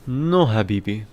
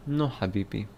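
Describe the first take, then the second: First: Loud, hammed-up Egyptian accent on Habibi; mock Egyptian exclamation, No louder; playful Egyptian No, Habibi. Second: Said in the usual way. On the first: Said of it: "Do an Egyptian accent". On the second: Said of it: "Egyptian accent is too much".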